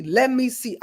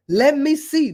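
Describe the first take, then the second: First: Said in the usual way. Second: Higher, louder eager take; eager searching. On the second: Pretend. Pretending to pick a newborn to come back as, eager and higher. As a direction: say it like scanning eagerly for a new life.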